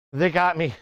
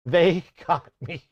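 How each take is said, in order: First: Said in the usual way. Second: Laughing. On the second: Real, not acted. Said through laughter.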